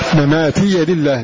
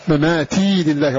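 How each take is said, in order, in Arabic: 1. الياء الأخيرة مفتوحة بفتحة قصيرة. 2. الياء الأخيرة ساكنة، بلا حركة. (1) "فتح الياء" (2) "يقرأ بإسكانها"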